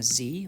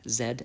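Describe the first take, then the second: First: The letter is said as zee, American style. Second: The letter is said as zed, Canadian style.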